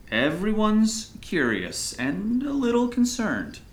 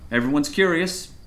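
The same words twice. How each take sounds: First: Slow, higher-pitched, stretched phrasing; drawn-out emphasis. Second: Said in the usual way. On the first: Acted. Pastor hinting at the town's concern, drawn out. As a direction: draw out "curious" and lift the pitch.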